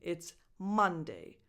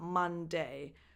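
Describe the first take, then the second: First: The first syllable is stressed. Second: The second syllable is stressed. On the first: The speaker calls it right. "the stress is always on the first syllable" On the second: The speaker calls it wrong. "So it's not"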